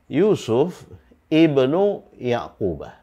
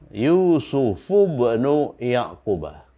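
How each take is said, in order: First: Ibnu starts anew with an i after a break. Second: The first vowel of ibnu is dropped, words joined. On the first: "ini tidak disambungkan bacaannya... ini dibaca i ya" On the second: "disambungkan dengan kata ibnu. Dengan demikian ini hamzah wasal ini tidak dibaca"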